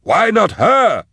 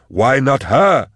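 First: Extremely high, drawn-out scream of protest; terrified shriek. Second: Slow, high-pitched wail; terrified cry. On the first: Fleeing man repeating it in terror, shrieked wail. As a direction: let it break out very high and slow. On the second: Fleeing man in terror, high drawn-out cry. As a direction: cry it out high, stretching each word. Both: A narrator's reading. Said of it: "he cried".

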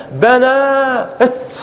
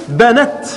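First: "بنات" very slow, long aa held, then a detached t; original form, alif kept. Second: "بنت" with a short final vowel straight into ت; alif dropped. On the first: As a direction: stretch the aa in "بنات" and set the final ت apart. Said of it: "كانت هكذا". (نطق "بنات" ببطء بمدّ الألف ثم تاء ساكنة منفصلة) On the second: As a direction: say "بنت" as one word, short a before the closing t. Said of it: "فتحذف الألف فتصير". (نطق "بنت" بحذف الألف ووصل الفتحة بالتاء الساكنة) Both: Shown as a demonstration.

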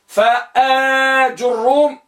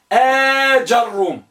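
First: فآج الروم slowly, long آ then ju; damma on jim. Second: آج الروم slowly, long آ then ja; fatha on jim. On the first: Teacher contrasting two types, slow with rounded jim. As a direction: draw out فآج الروم as fa-aa-jur-rum. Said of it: "الرابعة آج الروم بضم الجيم". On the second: Teacher contrasting two types, slow with open jim. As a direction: draw out آج الروم as aa-jar-rum. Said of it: "الخامسة آج الروم". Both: Shown as a demonstration.

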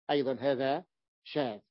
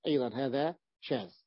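No difference in how they are said.

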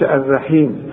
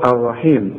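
First: الرحيم with a thin ra, the wrong way. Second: الرحيم with a full, heavy ra; heavy ra, right. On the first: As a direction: say الرحيم with a thin ra to show the mistake. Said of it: "ما تقولش الرحيم". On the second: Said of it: "فخم الراء هنا". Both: Shown as a demonstration.

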